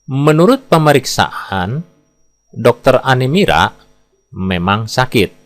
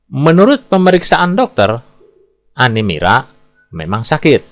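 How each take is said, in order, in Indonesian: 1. Jeda ada tepat sebelum kata dokter. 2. Jeda ada tepat setelah kata dokter.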